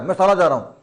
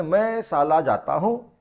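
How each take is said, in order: First: साला said quickly with a plain s, like the slang insult; heard as swearword. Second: साला said slowly as shaala, with sh; proper Hindi word. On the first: Schoolboy answering where he is going, sounds like swearing. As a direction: toss off साला in casual speech. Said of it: "साला मैं गाली देता है". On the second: Teacher explaining the schoolboy's innocent answer, careful Hindi. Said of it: "Hindi में बोला उसने". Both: Acted.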